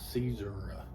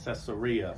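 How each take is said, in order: First: It is said the way locals say it. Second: It is said the usual American English way.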